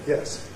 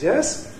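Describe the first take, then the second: First: The pitch falls low at the end. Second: The pitch rises from a high point. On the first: "Low fall" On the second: "High rise"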